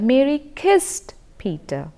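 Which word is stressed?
kissed. The word kissed carries the main stress. It answers what was done to him. "the prominence on Mary kissed Peter"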